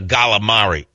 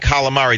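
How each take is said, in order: First: The word is said in an exaggerated tough-guy accent. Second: The word is said in a plain, ordinary accent. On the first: "they would try to act like they were tough" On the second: "instead of saying calamari"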